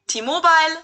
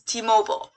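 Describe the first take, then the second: First: It is said with a German pronunciation. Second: It is said with an American pronunciation. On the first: "pronounced differently in Germany" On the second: "and the U S"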